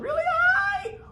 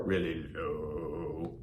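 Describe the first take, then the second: First: Squeaky high voice, held out; really high pitch. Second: Deep, slow, drawn-out low voice; really low pitch. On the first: Teacher demonstrating pitch to the class, really high. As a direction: soar way up in pitch. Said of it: "Pitch is how I can make something sound". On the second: Teacher demonstrating pitch to the class, really low. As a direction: sink the pitch and stretch it out. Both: Shown as a demonstration.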